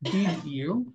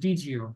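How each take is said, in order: First: The two words are said separately in full. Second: The two words blend into one reduced form.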